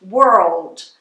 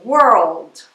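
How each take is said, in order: The two takes are said the same way.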